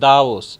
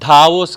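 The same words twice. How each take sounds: First: The first consonant is unaspirated, a plain d. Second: The first consonant is aspirated, a breathy dh. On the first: The speaker calls it right. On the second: The speaker calls it wrong.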